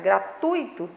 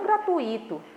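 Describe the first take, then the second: First: The stress is on the syllable 'tui'. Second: The stress is on a syllable other than 'tui'. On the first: The speaker calls it right. "é gratuito / a sílaba tônica aí é tui" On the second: The speaker calls it wrong. "e não gratuito"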